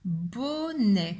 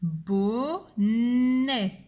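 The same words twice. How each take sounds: First: "Bonnet" as a tighter two-beat word; measured "bo-nè", no long hold; syllables joined up. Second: "Bonnet" as long bo, long nnnè; slow dictation, leaning on the n; syllable by syllable. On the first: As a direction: recap "Bonnet" with only a short n. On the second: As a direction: draw out both syllables of "Bonnet". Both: Shown as a demonstration. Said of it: "qui fait le son".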